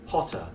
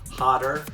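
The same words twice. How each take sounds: First: The middle T sounds like a crisp T. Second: The middle T sounds like a soft D. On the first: "are pronounced like T's in a British accent" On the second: "T's in the middle of the words are pronounced like D's in American"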